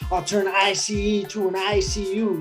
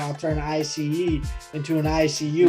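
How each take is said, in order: First: It is said in a harder, aggressive way. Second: It is said softly, in a mellow vibe.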